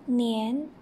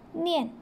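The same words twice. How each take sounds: First: The pitch rises from middle to high. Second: The pitch falls sharply from high to low.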